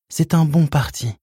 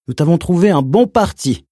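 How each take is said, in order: First: Pleading mother. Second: High, loud, honeyed announcement; sugary uncle voice. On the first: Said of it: "Sa voix était implorante". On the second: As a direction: sweet-talk her like a four-year-old. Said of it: "d'une voix doucereuse". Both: Acted.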